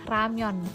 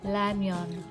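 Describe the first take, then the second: First: The word begins with an R sound. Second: The word begins with an L sound. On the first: "orang Korea ngomongnya ramyon, bukan lamyon" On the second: "dia akan dibaca seperti seperti seperti L ya"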